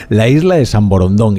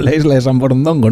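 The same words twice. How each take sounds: First: Borondón, cut off at stressed -dón; corrected name Borondón. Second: Borondongo, stress on -don-, then an extra -go; mistaken name Borondongo. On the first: Host putting the island's name right, Borondón ending on -dón. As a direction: finish Borondón on -dón, without -go. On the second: Host owning up to posing as an outsider, Borondongo with added -go. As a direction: end the name wrongly in -ongo: Borondongo. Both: Shown as a demonstration. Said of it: "No, la isla de San Borondón".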